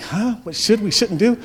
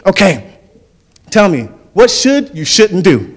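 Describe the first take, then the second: First: High-pitched puzzled echo, without the coach's force; baffled team. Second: Loud, higher-pitched mock coach; pouty-lipped coach impression. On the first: Retold or imitated. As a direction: echo the question as a confused player. Baffled players echo coach's question. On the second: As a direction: quiz the team as a comic coach, lips stuck out. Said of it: "he'd stick his lips out like this".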